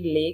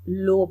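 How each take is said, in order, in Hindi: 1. यह शब्द 'uh' स्वर पर खत्म होता है। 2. यह शब्द 'oh' स्वर पर खत्म होता है। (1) "कभी ले कहते हैं लोग" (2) "पानी को हम लो बोलते हैं"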